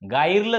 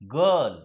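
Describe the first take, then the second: First: The vowel is an 'ai' sound. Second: The vowel is a short 'uh' sound. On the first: The speaker calls it wrong. "गायरलं झालं का नाही" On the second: The speaker calls it right. "आयचा उच्चार ई न होता आई न होता अ होतो"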